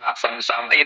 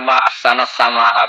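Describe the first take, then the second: First: The last word ends with an 'i' sound. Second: The last word ends with an 'a' sound. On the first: It asks what is most beautiful in the sky. The speaker calls it wrong. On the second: It expresses wonder at how beautiful the sky is. The speaker calls it right. "harusnya kamu baca"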